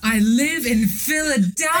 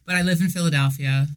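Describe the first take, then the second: First: It is said in an excited, lively tone. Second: It is said in a flat, unexcited tone.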